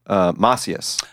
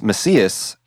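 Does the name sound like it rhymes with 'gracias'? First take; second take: yes; no. First: The name sounds like it rhymes with 'gracias'. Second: The name does not sound like 'gracias'. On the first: This is what the speaker thinks is proper. "I actually think it's Macias. ... gracias, like the R and the I. Gracias, Macias" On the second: This is how the family says it. "my family says Macias"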